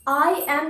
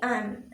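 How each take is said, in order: First: It is said as two separate words. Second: It is said as one short syllable. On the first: The speaker calls it wrong. "आई एम नहीं" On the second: The speaker calls it right. "तो इसे हम बोलेंगे एम"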